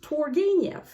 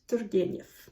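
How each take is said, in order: First: The name is said with English pronunciation. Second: The name is said with Russian pronunciation. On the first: "In English" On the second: "And in Russian"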